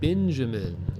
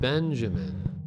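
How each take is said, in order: First: The first syllable is said like "bin". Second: The first syllable is said like "ben". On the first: "calling them Bin. Like Benjamin" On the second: "instead of Benjamin"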